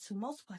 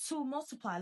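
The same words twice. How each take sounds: First: Said in the usual way. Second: To multiply said higher with weight on To; emphatic repeat of "To multiply"; emphasized. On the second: Shown as a demonstration. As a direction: lean into "To multiply" and stress To. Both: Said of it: "Let me emphasize that".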